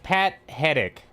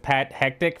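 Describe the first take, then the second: First: The second name sounds like 'Hedick'. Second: The second name sounds like 'hectic'. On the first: This is what the name actually is. "It's Pat Hedick" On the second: This is the speaker's own habitual way of saying it. "I always pronounce it as Pat Hectic for some reason"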